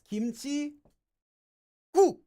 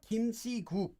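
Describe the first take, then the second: First: The first consonant of 국 is doubled. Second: The first consonant of 국 is plain. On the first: The speaker calls it right. "the first syllable of the second word becomes double" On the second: The speaker calls it wrong. "So it's not kimchi 국"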